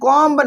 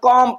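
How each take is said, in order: First: The word ends with an audible b sound. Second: The word ends on the m, no b sound. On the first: The speaker calls it wrong. "कॉम्ब नहीं पढ़ेंगे" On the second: The speaker calls it right. "कॉम पढ़ेंगे"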